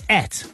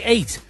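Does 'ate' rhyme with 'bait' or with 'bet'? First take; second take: bet; bait. First: The word rhymes with bet. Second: The word rhymes with bait. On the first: This is how a Gloucester speaker says it. "I'm from Gloucester, so I say et" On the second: This is how a London speaker says it. "If I was from London, I'd say 8"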